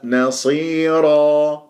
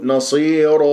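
First: نصيرا slow, with a heavy, clearly trilled راء; slow tajweed model; correct recitation. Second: نصير with the ending cut short, shown as a mistake; wrong pronunciation. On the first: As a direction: recite نصيرا slowly and roll the راء well. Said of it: "بهذه الطريقة". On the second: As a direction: clip the end of نصير. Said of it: "ولا أقول". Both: Shown as a demonstration.

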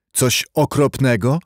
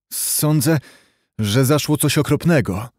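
First: Mildly startled echo, rising into a question; alarmed, confused. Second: Lightly hoarse, grave voice; a touch of hoarseness in a servant's confession. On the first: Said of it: "zawołał adwokat, przerażony i zmieszany". (z lekkim przerażeniem i zmieszaniem, pytająco) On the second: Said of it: "rzekł Paweł ochrypłym głosem". (lekko ochrypłym głosem) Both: A narrator's reading.

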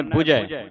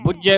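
First: ਬੁਝੈ with a soft, light middle J; soft pronunciation. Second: ਬੁਝੈ with a heavy middle J; heavy, wrong take. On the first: Teacher shows children how fire is read, soft pronunciation. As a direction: say ਬੁਝੈ lightly, no doubled consonant. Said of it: "ਇਸ ਨੂੰ ਪੋਲਾ ਉਚਾਰਨ ਕਰਨਾ ਹੈ". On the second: Teacher warns children against this reading, heavy pronunciation. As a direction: lean hard on the J of ਬੁਝੈ. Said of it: "ਉਚਾਰਨ ਨਹੀਂ ਕਰਨਾ". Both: Shown as a demonstration.

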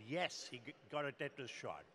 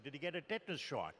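First: Mildly proud retold reply; proud answer. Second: Brisk, retold doctor's query; quick question. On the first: Doctors answering the father on the phone, mildly proud. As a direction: answer with a touch of pride on the yes. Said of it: "very proudly they said". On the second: Father questioning army doctors by phone, a quick retold question. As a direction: ask it quickly, at an even volume. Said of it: "He asked one more question".

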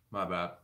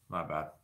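First: Said in the usual way. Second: Sheepish low murmur; softer muttered apology. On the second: Real, not acted. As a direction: lower and softer, trailing off. Apology repeated, fading.

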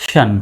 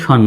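First: শন as a softened ending, vowel not fully sounded; not a straight শন. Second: Said in the usual way. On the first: Shown as a demonstration. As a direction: say শন lightly as a suffix, not spelled straight. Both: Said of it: "সরাসরি শন নয়".

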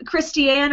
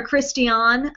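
First: Christiane ending like "Ann"; first pronunciation option. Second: Christian ending like "on"; alternative pronunciation. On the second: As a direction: say Christian as Christy-ON, three syllables. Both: Shown as a demonstration. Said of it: "not sure how you say it".

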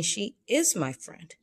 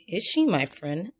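First: "She is my friend." slowly stated, stress on "is"; slow, settled telling tone on "She is my friend."; declarative statement. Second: "Is she my friend?" put as a question; questioning tune on "Is she my friend?"; asking as a question. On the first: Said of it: "I'm saying". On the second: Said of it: "I'm not asking". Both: Shown as a demonstration.

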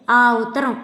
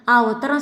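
First: "ఆ ఉత్తరం" pressed out word by word; pointed emphasis. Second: Said in the usual way. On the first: A narrator's reading. Wife reminding husband of his brother's letter, stressing "ఆ ఉత్తరం". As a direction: lean firmly on "ఆ ఉత్తరం". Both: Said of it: "అంది ఒత్తి పలుకుతూ".

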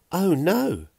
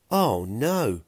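First: High, loud squeal of alarm. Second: Mild narrated cry of dismay. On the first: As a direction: squeal it out in sudden dismay. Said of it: "Fiona squealed". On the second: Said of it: "Pilk cried". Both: A narrator's reading.

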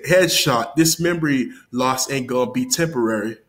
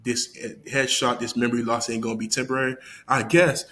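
First: Mildly energetic retold rap bar. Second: Unimpressed. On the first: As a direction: deliver the bar like you think it's hot. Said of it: "he was saying it with all energy". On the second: Retold or imitated. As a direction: recite the bar with no energy, unconvinced. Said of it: "I'm like".

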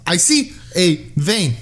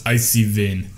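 First: Put-on slow, clumsy Russian accent; bad Russian accent. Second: Co-host's mock Russian nurse; Russian accent. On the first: Nurse finding a vein, badly done Russian accent. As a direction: announce it slowly in an attempted Russian accent. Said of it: "I can't do a Russian accent". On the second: Co-host helping out the storyteller, Russian nurse accent. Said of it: "Ah, yes, exactly".

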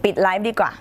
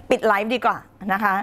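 First: Said in the usual way. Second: ปิดไลฟ์ดีกว่านะคะ said through a real laugh. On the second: Real, not acted. Host jokingly threatens to end the live, laughing. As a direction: laugh while saying ปิดไลฟ์ดีกว่านะคะ.

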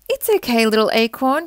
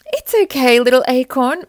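First: Calling out. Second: Reassuring. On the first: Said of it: "his mum called out". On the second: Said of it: "Mother Oak assured him". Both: A narrator's reading.

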